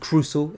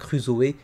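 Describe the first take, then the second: First: It is pronounced the English way. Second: It is pronounced the French way. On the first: The speaker calls it right. "ça se dit Crusoe" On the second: The speaker calls it wrong. "et non pas Crusoe comme en français"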